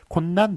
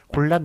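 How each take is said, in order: First: The second syllable begins with an n sound. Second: The second syllable begins with an l sound. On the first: The speaker calls it wrong. "이런 식으로 하면 틀리고요" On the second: The speaker calls it right. "잘못 읽는 것만 맞게 하였습니다"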